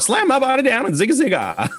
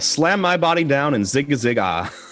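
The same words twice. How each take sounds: First: It is said in a put-on old-man voice. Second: It is said in the speaker's normal voice.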